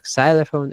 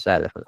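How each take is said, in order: First: Xylophone begun with an S sound; wrong-example xylophone, hissed S in place of Z; mispronunciation demo. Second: Xylophone begun with a Z sound, pitched lower; correct pronunciation. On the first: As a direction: say "xylophone" as SY-luh-fone. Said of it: "It's not xylophone". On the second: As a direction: say "xylophone" as ZY-luh-fone. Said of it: "it's xylophone". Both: Shown as a demonstration.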